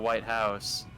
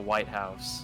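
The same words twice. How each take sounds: First: The stress falls on the word house. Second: The stress falls on the word white. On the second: The specific building in Washington D.C.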